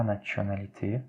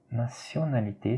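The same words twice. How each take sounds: First: "nationalité" with a tch sound for the t; prononciation fautive. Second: "nationalité" with an s sound for the t; prononciation correcte. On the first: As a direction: say "nationalité" wrongly, as natchonalité. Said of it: "ce n'est pas". (« nationalité » fautif, avec un son « tch ») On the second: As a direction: model "nationalité" as na-sio-na-li-té. (« nationalité » avec « ti » prononcé « si ») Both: Shown as a demonstration.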